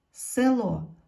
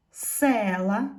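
First: "село" loud, stressed on the final о; "село" with the weight on the last syllable; stress on second syllable. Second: "села" loud, with a long stressed е; "села" with the weight on the first syllable. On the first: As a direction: say "село" with the beat on ло, е unstressed. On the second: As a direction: punch се in "села", ending on a rise. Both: Shown as a demonstration. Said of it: "стали наголошеними".

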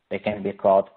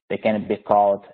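No difference in how they are said.

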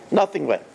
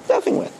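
First: Said in the usual way. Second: Nothing went said much higher, rising emphasis; emphatic high repeat. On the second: Shown as a demonstration. Rabbi repeats the groom's failure to the congregation, emphatic high echo.

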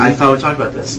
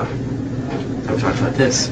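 First: Said in the usual way. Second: Slow hushed whisper, disappointed; whispered repeat. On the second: Acted. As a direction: breathe it slowly, barely voiced. Scolding Joe, repeated.

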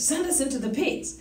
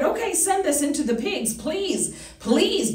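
First: Quieter, hushed plea; softer begging. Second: Mock begging demons, pleading. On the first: Retold or imitated. Preacher acting demons begging Jesus, quietly pleading. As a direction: drop it to a soft begging whisper-like tone. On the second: Preacher acting demons begging Jesus, mild pleading. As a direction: plead like a cornered demon, lightly acted. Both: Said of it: "begging Jesus".

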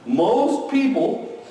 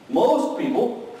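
No difference in how they are said.

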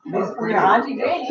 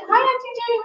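First: Said in the usual way. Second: Bright, higher hello; cheery greeting. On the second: Real, not acted. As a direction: greet her happily, voice lifted. Greeting aunt on camera.

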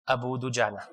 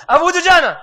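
First: Low, soft and flat, half laughing; flat clip. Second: High, loud, fast mock version of the insert; mocking his clip. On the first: Retold or imitated. He recalls the two-second clip he recorded, flat and soft. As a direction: say it like a dull recorded insert. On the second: He mocks how his recorded clip stands out in the video, high and loud. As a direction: make the spliced name jump out. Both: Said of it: "I heard how I said it".

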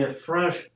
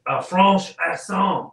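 First: Said in the usual way. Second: Drawn-out, put-on French accent. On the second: Shown as a demonstration. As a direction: slowly ham up a French accent. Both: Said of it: "you have to say it in a French".

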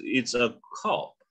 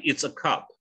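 First: Cop with a rounded British o; British pronunciation. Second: Cop with an open ah, close to cup; American pronunciation. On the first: Teacher shows British sounds clearer, slow British cop. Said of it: "kalau British". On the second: Teacher shows it could mean cup or police, American cop. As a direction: say cop as "cahp". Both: Shown as a demonstration.

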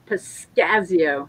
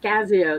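First: Piscasio said slowly, syllable by syllable; slow, trying out Piscasio; careful slow sounding-out. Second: Said in the usual way. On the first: Shown as a demonstration. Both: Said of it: "That's pretty good".

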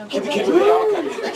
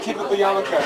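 First: Squeaky voice through giggles; high giggly squeal. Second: Said in the usual way. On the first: Real, not acted. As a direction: squeal it playfully. Giggly high squeal, then repeated.

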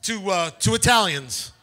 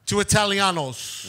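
First: Said in the usual way. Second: "Italianos" rolled in a joking Italian accent; hammed-up Italian accent, slower. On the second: Shown as a demonstration. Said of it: "Why are we doing a Cuban accent?".

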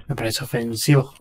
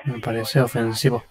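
First: Laughing. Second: Said in the usual way. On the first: Shown as a demonstration. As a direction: say it through a chuckle. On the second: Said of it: "repeats it laughing".

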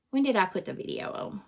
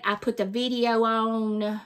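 First: Soft, quick question muttered to herself; quiet muttering. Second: Said in the usual way. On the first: Real, not acted. Vlogger trying to recall the upload day, muttering. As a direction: drop the voice and ask yourself fast. Wondering aloud when she posted.

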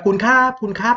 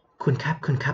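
First: High, raised call to rouse someone; loud calling out. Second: A near-whisper, too soft to wake anyone; شبه همس. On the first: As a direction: call out loudly to wake an unresponsive patient. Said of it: "ตะโกนเรียกดังๆเลยครับ". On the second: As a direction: call the patient softly, as if whispering. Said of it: "ไม่ใช่กระซิบกันนะ". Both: Shown as a demonstration.

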